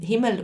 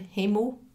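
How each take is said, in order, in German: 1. Es wird mit zürichdeutschem Akzent gesagt. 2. Es wird mit Luzerner oder Berner Akzent gesagt. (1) "Himmel auf Zürichdeutsch" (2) "Himmel auf äh, Luzerndeutsch oder Berndeutsch"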